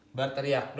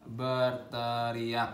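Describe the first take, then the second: First: Said in the usual way. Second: "Berteriak" stretched syllable by syllable on a low, level pitch; very slow, chanted "Berteriak", not shouted; drawn-out mock yell. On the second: Shown as a demonstration. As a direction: draw out every vowel of "Berteriak". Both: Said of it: "ngegas lah".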